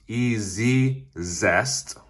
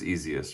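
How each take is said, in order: First: It is said with a doubled z, 'ee-zee-zest'. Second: It is said like the word 'easiest'. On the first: The speaker calls it wrong. "I saw it pronounced E-Z-Zest, even though there's only one Z" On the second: The speaker calls it right. "I'm pretty sure it's Easiest"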